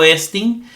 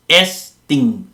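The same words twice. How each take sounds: First: Said in the usual way. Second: "estin" split in two, es-tin; syllable by syllable. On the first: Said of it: "el verbo estin". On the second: Shown as a demonstration. Teacher showing the word has two syllables, "estin" broken into es-tin. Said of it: "son dos sílabas".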